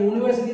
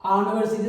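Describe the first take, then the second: First: The word starts with a 'you' sound. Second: The word starts with a plain vowel sound. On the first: The speaker calls it right. "യൂണിവേഴ്സിറ്റി എന്നാണ്" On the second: The speaker calls it wrong. "ആണിവേഴ്സിറ്റി എന്നല്ല പറയേണ്ടത്"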